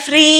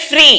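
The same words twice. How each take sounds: First: ఫ్రీ stretched as a long syllable; wrong long vowel. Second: ఫ్రీ said with one short ee sound; short single ee. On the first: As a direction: drag out the ee in ఫ్రీ on purpose. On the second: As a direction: say ఫ్రీ clipped, single vowel. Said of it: "చూడండి, ఫ్రీ". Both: Shown as a demonstration.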